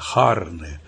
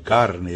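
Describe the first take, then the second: First: The first consonant is a breathy h sound. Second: The first consonant is a hard k sound. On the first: "Eles falam o C quase como um H aspirado" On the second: "que em italiano é carne"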